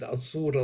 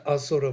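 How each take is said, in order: First: The middle vowel is held long. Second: The middle vowel is kept short. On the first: It means without light, against light. "Asura long O" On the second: It means a being full of the power of being. "Asura with short O"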